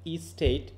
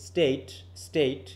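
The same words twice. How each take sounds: First: ই স্টেট with a light extra ই before স্টেট; e-state with extra vowel. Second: Slow স্টেট, স্টেট with a long vowel and no ই in front; careful স্টেট with the long vowel; correct state. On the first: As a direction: say ই স্টেট, slipping a faint ই sound in front. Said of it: "ইটা খুবই হালকা উচ্চারিত হচ্ছে". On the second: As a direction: say স্টেট, স্টেট slowly, starting straight on the s. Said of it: "আমরা স্টেট বলি". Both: Shown as a demonstration.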